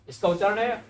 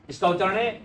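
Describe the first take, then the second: No difference in how they are said.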